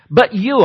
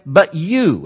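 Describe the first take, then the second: First: YOU stressed, higher and louder; emphatic you. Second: Said in the usual way. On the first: Shown as a demonstration. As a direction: lean hard on "you" in "But you," as if pointing at someone. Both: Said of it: "and it's emphatic".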